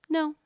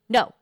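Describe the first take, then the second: First: A quick, light, precise no. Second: A short, forceful, hard-hitting no. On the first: "Or the dabbing no" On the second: "we would do the punching no"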